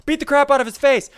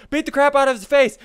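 The two takes are said the same way.

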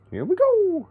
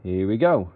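First: Sudden squeaky high voice; high-pitched. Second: Said in the usual way. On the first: Pretend. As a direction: pitch it way up, playful. Repeats phrase, second much higher.

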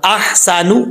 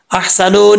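First: अहसानु slowly, clear haa and final short u; correct clear reading. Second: अहसानु said as "ahsano", ending in o; wrong final vowel. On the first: Teacher correcting it for students, slow clear haa. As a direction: articulate अहसानु ending in a tight u. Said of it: "clear sound करके पढ़ेंगे". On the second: Teacher warning students off a misreading, wrong o ending. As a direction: let अहसानु end on a wrong open o. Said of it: "अहसानु नहीं पढ़ना". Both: Shown as a demonstration.

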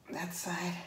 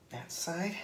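First: Soft breathy whisper. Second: Said in the usual way. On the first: Real, not acted. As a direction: whisper it to yourself. Tying knots, whispered repeat.

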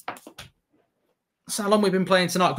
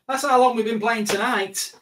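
First: Slow emphatic repeat. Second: Said in the usual way. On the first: Shown as a demonstration.

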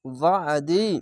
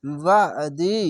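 First: ওয়াদি with the আইন pressed in the throat; throaty heavy ain. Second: ওয়াদি with a thick, throat-pressed আইন; throaty heavy ain. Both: Shown as a demonstration. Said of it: "আইনটিকে মোটা করে গলা চেপে পড়বেন".

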